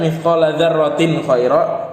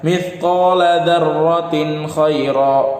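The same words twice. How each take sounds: First: The nun sound is nasalized and merged onward. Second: The nun sound is pronounced clearly and separately. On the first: The speaker calls it wrong. "Kalau orang yang nggak tahu dia akan baca" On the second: The speaker calls it right. "Dibaca jelas tanwinnya"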